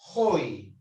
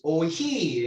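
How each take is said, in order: First: The stress falls on the first vowel. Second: The stress falls on the second vowel. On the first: The speaker calls it right. "pronuncia si estuviera en el primero" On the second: The speaker calls it wrong. "No es oiji"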